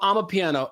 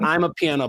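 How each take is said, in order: First: The first part sounds like 'ah-ma'. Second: The first part sounds like 'I'm a'. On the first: The speaker calls it right. "it's called ama piano" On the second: The speaker calls it wrong. "Not I'm a piano"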